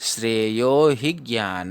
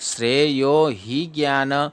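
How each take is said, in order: First: The vowel in 'hi' is short and joined on. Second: The vowel in 'hi' is drawn out long. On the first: The speaker calls it right. "ह में ही की मात्रा जो है वो छोटी है ... ही और ज्ञान इसको साथ में पढ़ना है" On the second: The speaker calls it wrong. "ही को बड़ा ले लेते हैं ... तो गलत हो जाए"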